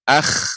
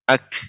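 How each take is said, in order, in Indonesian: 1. Bunyi k tidak tertutup sepenuhnya dan terdengar kasar. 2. Bunyi k menutup sepenuhnya, lalu dilepas dengan bersih. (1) "tidak boleh akh" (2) "pengucapan kaf dia harus menutup dahulu ya, kemudian baru dibuka"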